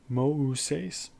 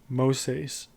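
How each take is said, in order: First: The two vowels are pronounced as separate sounds. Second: The two vowels merge into one gliding sound. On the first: The speaker calls it right. "You pronounce those two vowel sounds separately" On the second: The speaker calls it wrong. "You notice I'm not saying Moses"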